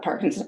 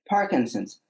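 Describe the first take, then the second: First: The word is said with alarm and distress. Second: The word is said calmly and evenly. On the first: The diagnosis is met with panic. The speaker calls it wrong. "Not Parkinson's. Oh my God" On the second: The diagnosis is accepted peacefully. The speaker calls it right. "my practice for about six months was to say"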